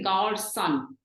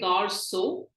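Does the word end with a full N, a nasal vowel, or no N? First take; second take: full N; no N. First: The word ends with a fully pronounced N sound. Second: The word ends in a plain vowel, no N. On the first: "We don't want to say gar son" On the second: "We don't want to say gar so"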